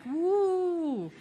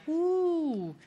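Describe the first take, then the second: First: Higher laughing woo back at the crowd; laughing mock cheer; my own whoop. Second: High whooping cheer from the crowd; mock crowd woo. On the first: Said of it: "And I would be like". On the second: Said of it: "the crowd would be like".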